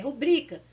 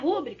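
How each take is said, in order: First: The stress is on the second syllable. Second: The stress is on the first syllable. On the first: The speaker calls it right. "é rubrica" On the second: The speaker calls it wrong. "A gente vai acentuar a palavra no lugar errado"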